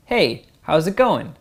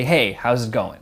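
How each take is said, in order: First: Ending rising high and needy; needy uptalk. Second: Going said level and falling, not rising; downtalk. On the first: Coach demonstrating needy uptalk. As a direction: ask it like you need approval. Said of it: "a needy voice goes up at the end". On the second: Coach showing the confident downtalk version. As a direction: say it settled, tune dropping at the end. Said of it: "Instead, you say". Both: Shown as a demonstration.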